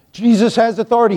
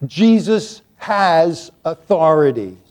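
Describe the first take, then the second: First: Jesus has authority tossed off quickly; quick restatement. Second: Jesus has authority drawn out slowly, pitched lower. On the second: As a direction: lean on every word of Jesus has authority, slow and deep. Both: Shown as a demonstration. Repeats the phrase twice, differently.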